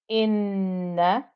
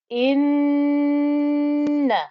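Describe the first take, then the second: First: The double n is short without a nasal hum. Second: The double n is held with a nasal hum. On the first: The speaker calls it wrong. "that's okay" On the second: The speaker calls it right. "the actual deluxe version of a noon with a shadda should be like this"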